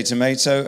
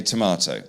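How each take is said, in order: First: "tomato" with an AY in the middle, to-MAY-to; American tomato. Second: "tomato" with a long AH in the middle, to-MAH-to; English tomato. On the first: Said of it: "You say tomato". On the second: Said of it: "and we say tomato". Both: Shown as a demonstration.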